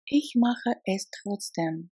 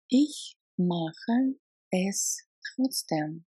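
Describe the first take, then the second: First: Said in the usual way. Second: "Ich mache es trotzdem" at half speed; slow repeat. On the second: Shown as a demonstration. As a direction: drag it out so learners hear every sound.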